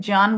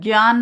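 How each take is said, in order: First: The word begins with a j sound. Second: The word begins with a g sound. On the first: The speaker calls it right. "हमें ज्ञान बोलना चाहिए" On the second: The speaker calls it wrong. "इसको ज्ञान ना बोल के"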